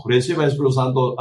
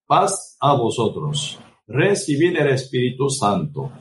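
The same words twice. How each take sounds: First: "Reciba el Espíritu Santo" rattled off fast like a careless formula; mock pastor, rushed. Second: Solemn words of Christ. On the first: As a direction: toss it off quickly in mockery. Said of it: "Algunos pastores, ¿verdad? Dice". ("Reciba el Espíritu Santo" dicho rápido y burlón) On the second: Retold or imitated. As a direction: lay each word down slowly and solemnly. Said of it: "Y él dice". (voz de Cristo, lenta y solemne)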